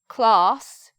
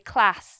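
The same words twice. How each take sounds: First: It has a long, open 'ah' vowel. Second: It has a short, flat 'a' vowel. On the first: "In the south, we make our, our vowels with R, like class" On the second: "in the north they would say class. They would make the same vowel with the A pronunciation"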